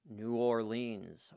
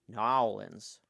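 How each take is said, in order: First: It is said the standard, outsider way. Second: It is said the local Southern way.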